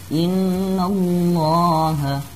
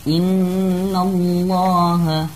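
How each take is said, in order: No difference in how they are said.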